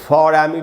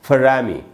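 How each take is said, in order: First: 'For' has a full vowel before 'Amy'. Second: 'For' is reduced and runs into 'Amy'. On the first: "strong form वाला उच्चारण" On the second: "फ के बाद आधा अ"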